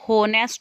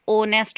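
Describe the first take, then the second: First: The word begins with an audible h sound. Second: The word begins directly with a vowel sound. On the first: The speaker calls it wrong. "इसमें एच silent है, इसे हम होनेस्ट नहीं" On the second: The speaker calls it right. "ओनेस्ट बोलते हैं"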